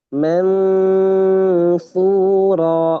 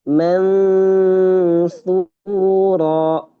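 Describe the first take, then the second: Both takes have the same delivery.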